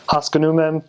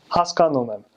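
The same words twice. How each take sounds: First: Haskanumem with the second syllable skipped over as "uh"; bad American accent. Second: Haskanumem with a full "ah" in the second syllable; even syllables: "has-kahn-oo-mem"; good Armenian accent. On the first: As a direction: bounce over the second vowel: "HAS-kuh-noo-mem". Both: Shown as a demonstration. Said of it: "Do you kinda hear the difference?".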